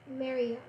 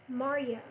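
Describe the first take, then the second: Both takes have the same delivery.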